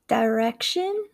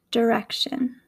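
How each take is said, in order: First: "direction" with a long "dye" first syllable; Southern pronunciation. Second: "direction" with a short "der" first syllable; Midwestern pronunciation. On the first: Teacher contrasting accents, "direction" said Southern as "dye-rection". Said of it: "in the Southern accent". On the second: Teacher contrasting accents, "direction" said Midwestern as "der-ection". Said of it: "in my Midwestern accent". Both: Shown as a demonstration.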